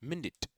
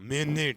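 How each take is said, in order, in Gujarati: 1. સ્વરો ટૂંકા રખાય છે. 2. સ્વરો લાંબા ખેંચાય છે. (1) "તો એમાં બંને રસ્વ હોય છે" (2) "મિનિટ એમ નથી બોલતા"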